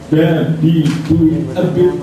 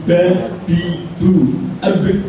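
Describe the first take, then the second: Both takes have the same delivery.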